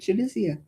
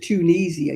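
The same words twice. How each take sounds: First: The vowel after the T is short. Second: The vowel after the T is long. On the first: The speaker calls it right. "It's got an I" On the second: The speaker calls it wrong. "gets me down when they elongate the E"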